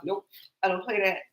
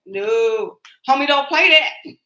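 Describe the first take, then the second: First: Said in the usual way. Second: Louder, higher sketch-character punchline; quoting a favorite In Living Color sketch, loud and high; In Living Color catchphrase. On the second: Retold or imitated. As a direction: belt it like the TV clown's catchphrase. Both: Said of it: "That was one of my favorite, In Living Colors sketches".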